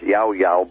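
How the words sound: It is pronounced the general Spanish way. "in Spanish, that's pronounced"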